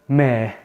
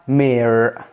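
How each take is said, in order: First: It is said in a British accent. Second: It is said in an American accent. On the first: "عند البريتش كلمه عمده هي اسمها كلمه ما" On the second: "لو هننطقها بالامريكان اكسنت بتبقى اسمها مير"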